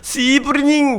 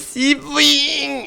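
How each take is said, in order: First: Every syllable of the phrase is fully pronounced. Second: The middle sounds are dropped in a reduced form. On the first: The speaker calls it wrong. "씨부리닝 이게 아니라" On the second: The speaker calls it right. "씨부잉 이렇게"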